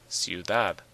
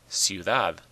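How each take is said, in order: Both takes have the same delivery.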